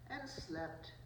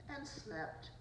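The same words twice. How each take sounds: The two takes are said the same way.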